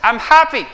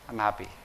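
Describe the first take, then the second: First: It sounds genuinely happy, with a real smile. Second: It sounds forced, as if made to smile.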